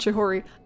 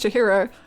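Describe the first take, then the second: First: The middle syllable is ho, ending in ri. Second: The middle syllable is hi, ending in ro. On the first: The speaker calls it wrong. "not Chihori" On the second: The speaker calls it right. "And it's Chihiro"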